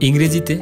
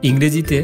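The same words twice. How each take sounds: Both takes have the same delivery.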